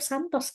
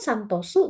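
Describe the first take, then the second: First: The name ends on a plain s sound. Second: The name ends with an added u vowel. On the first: This is how the name is actually spoken. "dia ngomongnya tetap Santos" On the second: This matches how the name is written in Japanese. "tulisannya kan Santosu gitu ya"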